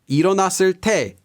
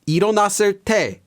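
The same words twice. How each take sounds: No difference in how they are said.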